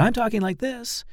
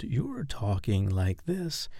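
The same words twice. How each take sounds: First: High, quick demo voice; brisk, high-pitched demonstration; contrasting fast style. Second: Sluggish, drawn-out demonstration; contrasting slow style. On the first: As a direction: pitch it way up and hurry. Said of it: "and I'm talking like this". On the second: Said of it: "and you're talking like this". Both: Shown as a demonstration.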